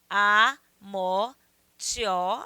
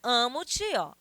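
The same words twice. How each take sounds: First: "Amo-te, ó" split as a, mo, ti-ó; counted syllable by syllable. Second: Said in the usual way. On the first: Shown as a demonstration. Teacher counting poetic syllables, "Amo-te, ó" broken as a, mo, ti-ó. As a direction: say "Amo-te, ó" in slow separate beats, gluing "te" to "ó". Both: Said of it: "Vamos contar".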